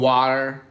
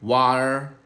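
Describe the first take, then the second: First: The word is said in an American accent. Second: The same.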